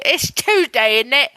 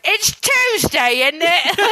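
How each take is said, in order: First: Lightly put-on British catchphrase; British accent. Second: High, drawn-out British catchphrase; British accent. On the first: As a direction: settle into an understated British accent. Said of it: "to get that in". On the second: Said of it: "I just need to think back to". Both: Shown as a demonstration.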